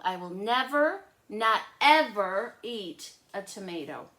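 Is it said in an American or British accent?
American. It is said in an American accent.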